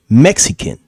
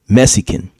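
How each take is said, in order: First: The word has its usual standard pronunciation. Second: The word has a dialect, reduced pronunciation. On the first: "He didn't say Mexican" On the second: "He said Mexican"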